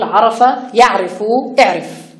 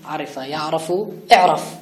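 First: The first verb has an a as middle vowel. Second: The first verb has an i as middle vowel. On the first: The speaker calls it right. "وإنما نقول" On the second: The speaker calls it wrong. "تقول عرفة على وزن لعيبة ... وهذا لا يمكن التزامه"

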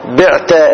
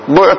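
First: The first consonant is followed by an i vowel. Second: The first consonant is followed by a u vowel. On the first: It would be confused with the active form. The speaker calls it wrong. "ولا يجوز الكسر" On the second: It is the passive form of the verb. The speaker calls it right. "وجب عند المصنف أيضا ضمه"

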